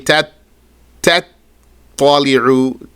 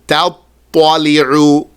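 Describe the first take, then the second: First: Two separate t sounds are pronounced one after another. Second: The two t sounds merge into one thick t. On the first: The speaker calls it wrong. "Don't say two tas" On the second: The speaker calls it right. "bring that ta to a ta"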